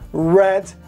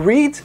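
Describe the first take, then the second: First: It is pronounced as the past-tense form. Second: It is pronounced as the present-tense form. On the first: The action happened in the past. "read é esse particípio passado ou o passado também" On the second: The action is in the present. "To read é o presente"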